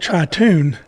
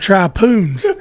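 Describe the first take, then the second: First: The word has a t sound before -oon. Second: The word has a p sound before -oon. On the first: The speaker calls it right. "It's called a tritoon" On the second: The speaker calls it wrong. "Kenneth sometimes has a unique ability to mispronounce words"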